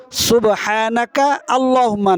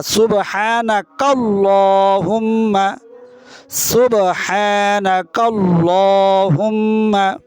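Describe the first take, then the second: First: সুবহানাকা আল্লাহুম্মা split apart, the wrong way; wrong pronunciation. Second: সুবহানাকাল্লাহুম্মা joined into one slow flowing word; correct pronunciation. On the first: Teacher showing the mistake to avoid, split words. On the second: Teacher correcting the mistake, joined slow recitation. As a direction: run সুবহানাকাল্লাহুম্মা together, slowly. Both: Shown as a demonstration.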